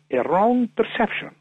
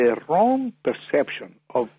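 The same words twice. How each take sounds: First: "wrong" lifted high and hit hard; emphatic "wrong" pitched well above the rest; stress on wrong. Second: Said in the usual way. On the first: Real, not acted. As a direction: push up on the word "wrong".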